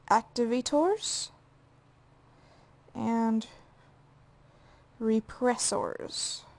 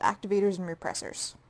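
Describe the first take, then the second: First: The words are pronounced in an odd way. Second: The words are pronounced in the ordinary way. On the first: The speaker calls it wrong. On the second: The speaker calls it right.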